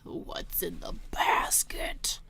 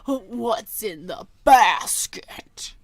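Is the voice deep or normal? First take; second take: normal; deep. First: It is said in her normal voice. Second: It is said in a put-on deep voice.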